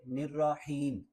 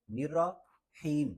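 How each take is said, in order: First: "نرحیم" in one connected word; joined syllables. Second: "نرا", a gap, then "حیم"; separated syllables. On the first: Teacher reads it together for learners, "نرحیم" connected. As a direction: join nir-raa and heem in "نرحیم". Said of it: "تو اکٹھا پڑھیں گے". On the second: Teacher splits the word for learners, "نرا" then "حیم" separately. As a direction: keep "نرا" apart from "حیم". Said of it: "را اور حا کو ملانا نہیں ہے". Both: Shown as a demonstration.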